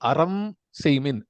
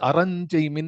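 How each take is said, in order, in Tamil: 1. seymin-க்கு முன் சொல் m-இல் முடிகிறது. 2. m, ny ஆக மாறி seymin-உடன் சேர்கிறது.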